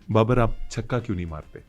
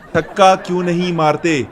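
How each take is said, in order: First: The question is asked in a softer, lowered tone. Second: The question is asked in a loud, raised tone.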